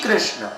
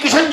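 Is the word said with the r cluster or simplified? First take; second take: with cluster; simplified. First: The r cluster is kept and the word is full. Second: The r cluster is dropped and the word simplified. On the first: "Sanskrit में कृष्ण उच्चारण होता है" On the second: "तो कृष्ण भी नहीं, किशन जी"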